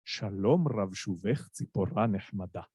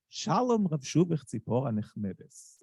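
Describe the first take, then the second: First: Low, majestic Sephardi Hebrew recitation; Sephardi accent. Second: Hebrew verse in a rounded, sweet Ashkenazi accent. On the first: Reciting Bialik's verse to show the audience, majestic Sephardi accent. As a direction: recite the verse lower, with stately Sephardi vowels and final stress. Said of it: "recite it in the Sephardi accent". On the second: Reciting Bialik's verse to show the audience, Ashkenazi Hebrew accent. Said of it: "recite it in the Ashkenazi accent". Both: Shown as a demonstration.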